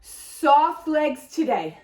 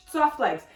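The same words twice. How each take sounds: First: "Soft" drawn out slowly and leaned on; slow, stress "Soft" against straight. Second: Said in the usual way. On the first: Shown as a demonstration. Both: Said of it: "Monday we had straight legs".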